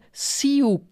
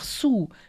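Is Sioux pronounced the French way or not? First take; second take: not French; French. First: It is not pronounced like French 'sous'. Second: It is pronounced like French 'sous'. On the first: The speaker calls it wrong. "ich hätte Sioux oder so" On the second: The speaker calls it right. "einfach Sioux, wie französisch unten"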